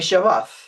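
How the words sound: It is said with an Israeli pronunciation.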